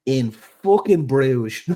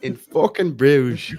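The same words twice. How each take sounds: First: Put-on slow, drawn-out Dublin accent with a laugh; a broad Dublin accent, in on the joke. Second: Higher, louder, slow hammed-up Dublin accent; an over-the-top Dublin accent for laughs. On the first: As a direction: lean into the Dublin accent, stretching every word. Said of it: "can you do it in your best Dublin accent". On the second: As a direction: belt it out like a Dublin hard man. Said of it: "in your best Dublin accent".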